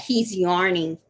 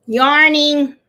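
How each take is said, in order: First: Said in the usual way. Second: Much louder, higher, drawn-out word; playful exclamation. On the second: Real, not acted. Teasing the dog as he yawns, playful exclamation. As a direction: sing it out loud and long.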